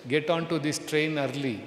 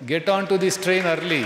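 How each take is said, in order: First: Said in the usual way. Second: "Get onto this train early" driven home with more force; emphatic repeat. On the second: Retold or imitated.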